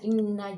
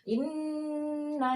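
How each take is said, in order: First: The doubled n sound is cut short. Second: The doubled n sound is held long. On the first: The speaker calls it wrong. "sudah dilebur tapi tidak ditahan" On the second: The speaker calls it right. "Dilebur dan ditahan, ditahan dua rakaat"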